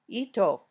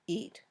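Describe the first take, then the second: First: An extra 'o' vowel follows the final t. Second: The word ends cleanly on the t, no vowel. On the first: The speaker calls it wrong. "or ito" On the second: The speaker calls it right. "Just eat"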